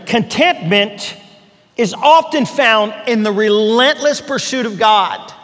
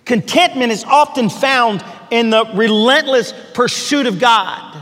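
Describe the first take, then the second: First: Each word laid down slowly; slow and deliberate. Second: Said in the usual way. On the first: Shown as a demonstration. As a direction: pastor stressing his key line to listeners, slowly weighted. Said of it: "Now hear that fresh and new". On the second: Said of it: "hear what this means".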